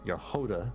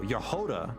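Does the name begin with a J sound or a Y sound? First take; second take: Y sound; Y sound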